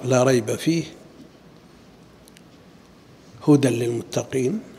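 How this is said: The pause comes after the word fihi. All of the book is guidance. The speaker calls it right. "الأولى أجود، لا ريب فيه، ثم قال هدى للمتقين"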